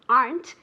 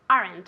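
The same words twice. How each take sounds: First: The word is said as one syllable. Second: The word is said as two syllables. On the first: The speaker calls it right. "is one syllable" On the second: The speaker calls it wrong. "I never, ever, ever, ever want to hear"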